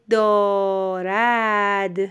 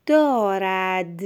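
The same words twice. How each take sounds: First: دارد drawn out in two long syllables; slow dictation. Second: Slow, evenly read دارد; measured first reading. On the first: Teacher dictates the last word to a pupil, very drawn-out. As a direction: stretch both vowels of دارد. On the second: Teacher ends the sample sentence for a pupil, slow and clear. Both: Shown as a demonstration.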